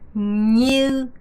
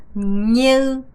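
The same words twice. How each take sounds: Both takes have the same delivery.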